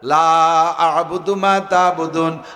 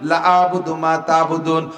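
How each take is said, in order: First: The vowel in 'la' is drawn out long. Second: The vowel in 'la' is cut short. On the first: It denies worshipping what they worship. The speaker calls it right. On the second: It becomes an emphatic affirmation instead of a denial. The speaker calls it wrong.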